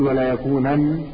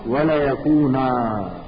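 First: The word ends in an n sound. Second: The word ends in a long a vowel. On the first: The speaker calls it wrong. "ولا تقول ولا يكونن" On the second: The speaker calls it right. "تقول لا يسجنن ولا يكونا"

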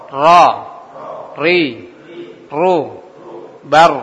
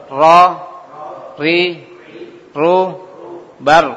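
The two takes are said the same way.

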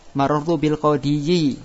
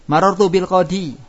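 First: The word ends with an added yi sound. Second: The word ends on a plain long i. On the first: This is the underlying form with the full ending. The speaker calls it wrong. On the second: This is the everyday form with the ending hidden. The speaker calls it right.

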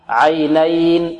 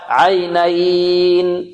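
First: The long vowel is held for four counts. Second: The long vowel is held for six counts. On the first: "4 حركات" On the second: "6 حركات"

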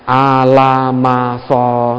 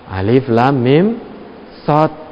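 First: The letters are run together as one word. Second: Each letter is named separately with full names. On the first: The speaker calls it wrong. "bacanya Al-Masoh, itu tidak boleh" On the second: The speaker calls it right. "Apa itu Al-Masoh? Alif, Lam, Mim, Sod"

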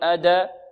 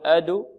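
First: The d bounces into an a vowel. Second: The d bounces into a u vowel. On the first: "لا نقول أدا" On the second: "لا نقول أدو"

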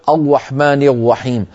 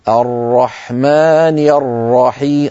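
First: The r sounds like a w, using the lips. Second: The r is a full tongue sound, heavy. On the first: The speaker calls it wrong. "ولا نقول الرحمن الرحيم، هنا جعلنا الراء واوا" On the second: The speaker calls it right. "الراء هي مفخمة بضغطها إلى على الفم"

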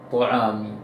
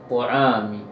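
The two takes are said the same way.

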